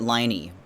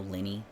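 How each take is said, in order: First: The first vowel is a long 'eye' sound. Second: The first vowel is a short 'i' sound. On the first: "I would pronounce it Liney, looking at it" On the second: "So then that means it's Linny"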